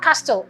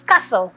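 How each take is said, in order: First: CASTLE with the T pronounced; wrongly sounded T. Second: CASTLE with the T dropped; silent T. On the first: Spelling teacher rejecting a mistake, CASTLE with sounded T. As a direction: say CASTLE as cas-tel. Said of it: "it's not castle". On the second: Spelling teacher correcting a mistake, CASTLE with silent T. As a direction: say CASTLE as cassel. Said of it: "The T is silent". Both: Shown as a demonstration.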